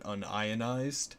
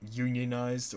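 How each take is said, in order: First: It begins with un, then ion. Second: It begins with the word union. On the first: A chemist would say it this way. "if they were chemists, they'd pronounce it unionized" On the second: A plumber would say it this way. "like tell the difference between a plumber and a chemist"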